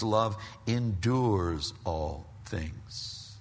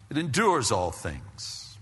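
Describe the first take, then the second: First: Love endures all things, each word drawn out slowly; slow emphasis. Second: Said in the usual way. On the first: Shown as a demonstration. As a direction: stretch "endures" out slowly for weight.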